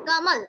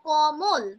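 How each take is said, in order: First: The vowels sound like 'a', as in kamal. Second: The vowels sound like 'o', as in komol. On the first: This is the Hindi way of saying it. "হিন্দির উচ্চারণের যে ধরনটা ... কামাল, কমল না" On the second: This is the Bengali way of saying it. "বাংলায় যখন বলবো তখন কিন্তু বলবো কমল"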